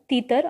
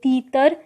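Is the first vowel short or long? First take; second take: short; long. First: The first vowel is short. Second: The first vowel is long. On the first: The speaker calls it wrong. "जो कि गलत है" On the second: The speaker calls it right. "बड़ी ई की मात्रा वाले शब्दों का उच्चारण लंबा किया जाता है"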